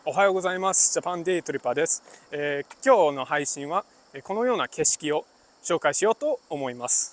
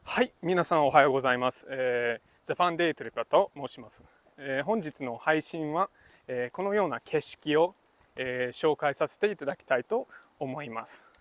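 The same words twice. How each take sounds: First: A little more hop, relaxed and bouncy; casual Japanese. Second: A light formal presenter tone, unhurried and composed; polite business Japanese. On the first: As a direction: greet viewers like friends, lightly. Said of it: "That's casual". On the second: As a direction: introduce yourself as at a business meeting. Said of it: "one in polite Japanese". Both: Shown as a demonstration.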